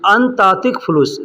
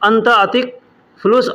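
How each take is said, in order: First: The first two words run together as one. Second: The first two words are said separately. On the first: "अंतातिक यानी एक में मिला करके अंत और अतिक को एक में मिला करके बोला जाता" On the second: "अलग बोलेंगे"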